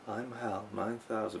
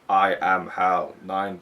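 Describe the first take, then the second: First: It is said in a soft human voice. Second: It is said in a stiff robotic voice.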